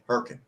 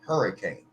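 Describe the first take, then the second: First: The word is squeezed into two syllables. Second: The word is said fully with three syllables. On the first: A local says it this way. The speaker calls it right. "It's Herkin" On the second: An outsider says it this way. The speaker calls it wrong. "that's not how it's said"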